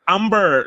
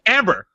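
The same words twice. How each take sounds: First: It is said with a Korean accent. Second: It is said with an English accent.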